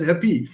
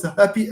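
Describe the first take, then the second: First: "happy" said hap-PY; weak hap, strong PY in "happy"; misplaced final stress. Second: "happy" said HAP-py; strong HAP, weak py in "happy"; stress on first syllable. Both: Shown as a demonstration. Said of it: "since you pronounce happy as happy".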